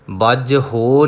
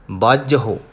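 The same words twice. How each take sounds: First: ਬਾਝਹੁ said as bajh-ho, long o; long ho ending. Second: ਬਾਝਹੁ stopped on a short hu; short hu ending. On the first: Teacher showing the mistake to avoid, ਬਾਝਹੁ as bajh-ho. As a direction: lengthen the end of ਬਾਝਹੁ into hoo with an o sound. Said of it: "ਨਹੀਂ ਕਹਿਣਾ". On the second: Teacher modelling for learners, ਬਾਝਹੁ with short hu. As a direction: cut the final u of ਬਾਝਹੁ short. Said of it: "ਹਾਹੇ ਨੂੰ ਔਂਕੜ ਰੋਕ ਦੇਣਾ ਹੈ". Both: Shown as a demonstration.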